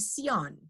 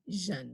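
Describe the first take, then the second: First: It starts with an s sound. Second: It starts with a zh sound. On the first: The speaker calls it wrong. "I don't want to hear them saying sion" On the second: The speaker calls it right. "I want to hear them saying jeune"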